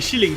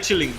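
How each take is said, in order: First: The word begins with an sh sound. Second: The word begins with a ch sound. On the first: "everyone says shilling now" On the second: "he's saying chilling"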